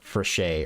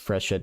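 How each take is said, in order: First: The name is said with French-style pronunciation. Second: The name is said with English-style pronunciation. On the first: The speaker calls it right. "It's probably French and it's like Frechet" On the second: The speaker calls it wrong. "I'm probably saying it wrong"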